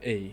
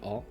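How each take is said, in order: First: The letter is said the English way. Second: The letter is said the French way. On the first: The speaker calls it right. "وانما A" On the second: The speaker calls it wrong. "ماشي A"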